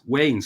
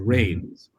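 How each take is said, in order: First: The name starts with a W sound. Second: The name starts with an R sound. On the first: The speaker calls it wrong. "because he couldn't roll his R's" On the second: The speaker calls it right. "with that that medial or, or initial R"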